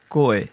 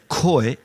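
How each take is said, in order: First: The k is said with little air, near g. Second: The k is said with a strong puff of air. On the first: The speaker calls it right. "with not a lot of air coming out ... think of the German G" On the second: The speaker calls it wrong. "so much air is coming out of your mouth"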